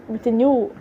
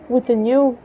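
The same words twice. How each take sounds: The two takes are said the same way.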